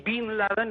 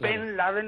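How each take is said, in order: First: The first word has an 'ee' vowel. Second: The first word has an 'e' vowel. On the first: It copies the American pronunciation. The speaker calls it wrong. "los americanos, que la E la pronuncian I" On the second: It means son of Laden. The speaker calls it right. "digo Ben, y no el anglicismo"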